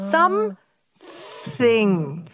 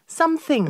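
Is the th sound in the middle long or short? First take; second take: long; short. First: The middle th sound is drawn out long. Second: The middle th sound is short and quick. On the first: "중간을 좀 길게 해주세요. 저처럼" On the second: "And then shorter later"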